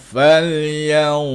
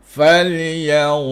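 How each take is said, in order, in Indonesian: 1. Bunyi n disamarkan menjadi bunyi sengau seperti ya. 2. Bunyi n disamarkan menjadi bunyi sengau seperti ya.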